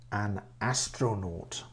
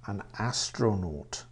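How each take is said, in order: Both takes have the same delivery.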